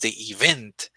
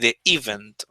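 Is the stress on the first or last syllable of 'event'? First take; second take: last; first. First: The stress is on the last syllable. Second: The stress is on the first syllable. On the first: The speaker calls it wrong. "He's stressing the last syllable" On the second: The speaker calls it right. "the stress is at the beginning, not at the end"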